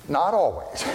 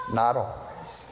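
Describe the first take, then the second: First: Said in the usual way. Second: Softer, slower "Not always" with a laugh; chuckling softly. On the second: Shown as a demonstration. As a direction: laugh it off quietly.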